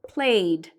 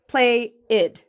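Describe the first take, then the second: First: The ending joins into a single syllable. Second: The ending is a separate extra syllable. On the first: The speaker calls it right. "we're linking it all together into one syllable" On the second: The speaker calls it wrong. "this is different from saying it as play-id"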